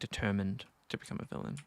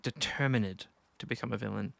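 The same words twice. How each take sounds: First: The ending -ed is not sounded separately. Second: The ending -ed is sounded as a syllable. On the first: The speaker calls it wrong. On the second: The speaker calls it right.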